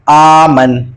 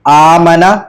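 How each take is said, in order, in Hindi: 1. शब्द 'n' की आवाज़ पर खत्म होता है। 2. शब्द का आखिरी स्वर 'a' है।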